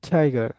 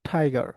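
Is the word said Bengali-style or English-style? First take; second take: English-style; English-style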